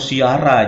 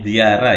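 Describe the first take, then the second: First: The word begins with an S sound. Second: The word begins with a Z sound. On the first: The speaker calls it wrong. "Jangan lagi diganti menjadi ziarah atau siara" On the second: The speaker calls it right. "jadi ziarah ya, pakai Z"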